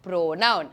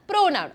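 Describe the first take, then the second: First: Said in the usual way. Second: "pronoun" said higher, punched as the answer; emphatic answer. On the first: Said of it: "അതാണ് നമ്മുടെ". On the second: Shown as a demonstration. Teacher answering her own quiz question, emphatic. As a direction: call it back firmly like the class answer. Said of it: "എന്താണ്?".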